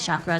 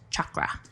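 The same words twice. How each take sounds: First: The word starts with a soft sh sound. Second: The word starts with ch, as in chalk. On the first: This is the speaker's habitual pronunciation. "I still say chakra because that's just how I say shit" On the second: This is the original pronunciation. "the pr- actual pronunciation is chakra"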